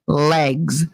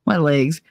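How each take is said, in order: First: "Legs" with a clear short E; corrective "legs". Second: "legs" with a raised vowel, like "laygs"; Jersey "legs". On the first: Retold or imitated. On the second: Shown as a demonstration. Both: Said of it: "make fun of me 'cause I say".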